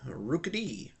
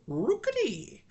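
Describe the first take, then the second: First: It is said in an ordinary speaking voice. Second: It is said like a creature's cry.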